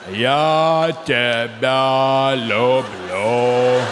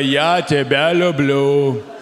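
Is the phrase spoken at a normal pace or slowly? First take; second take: slowly; normal. First: The phrase is spoken slowly and drawn out. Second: The phrase is spoken at a normal pace.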